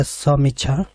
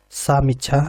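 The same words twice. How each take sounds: First: समीक्षा with short "sa" at the start; short first vowel. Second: सामीक्षा opening on a long "saa"; long first vowel. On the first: Teacher reading spelling options to students, short first vowel. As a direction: read समीक्षा carefully, first syllable a short "suh". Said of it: "तो option A है". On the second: Teacher reading a variant spelling to students, long first vowel. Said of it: "option B है". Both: Shown as a demonstration.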